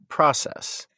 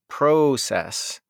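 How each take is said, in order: First: The first vowel is an open 'aw' sound. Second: The first vowel is a long 'oh' sound. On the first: "I'm saying process ... imagine if it was spelled P-R-A-W-C-E-S-S" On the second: "You're saying process ... you're spelling it like P-R-O-O-O-O-O-O-O-C-E-S-S"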